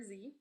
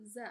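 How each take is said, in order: First: Said in the usual way. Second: "Z" as short buzzing zuh; isolated "zuh" for "Z"; letter sound demo. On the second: Shown as a demonstration. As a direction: say "Z" as the first sound of zebra. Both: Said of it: "makes the sound Z".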